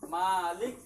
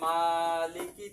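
First: The word ends on a silent consonant. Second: The word ends with a short vowel. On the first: "এখানে কিন্তু সাকিন দিয়ে পড়তে হয়"

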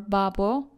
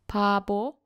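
First: It starts with b and has b in the middle. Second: It starts with p and has b in the middle. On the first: The speaker calls it wrong. "or babo" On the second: The speaker calls it right. "This word is pronounced as pabo"

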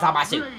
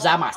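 First: The name ends with an extra 'oo' vowel. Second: The name ends on the 's' sound. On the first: The speaker calls it wrong. "not Zamasu" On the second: The speaker calls it right. "The actual pronunciation is Zamas"

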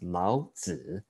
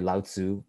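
First: The name is said with a Mandarin pronunciation. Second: The name is said with an English pronunciation. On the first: The speaker calls it right. "It's actually pronounced Lao Tzu" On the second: The speaker calls it wrong.

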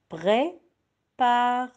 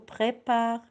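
First: The word is broken into separate syllables. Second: The word is said smoothly as one unit. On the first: "Découpez les mots en syllabes" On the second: "c'est le mot prépare"

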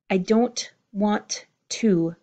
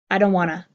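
First: Every T in 'want to' is clearly pronounced. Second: The T sounds drop, giving 'wanna'.

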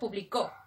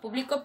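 First: The stress is on the last syllable. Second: The stress is on the middle syllable.

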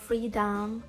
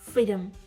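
First: The second syllable has a full, clear vowel. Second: The second syllable is reduced to a schwa. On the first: The speaker calls it wrong. "не freedom" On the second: The speaker calls it right. "звук шва"

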